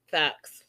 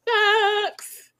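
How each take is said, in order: First: Said in the usual way. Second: Facts squealed high and far; high squeaky facts. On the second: Real, not acted. Repeats after laughing.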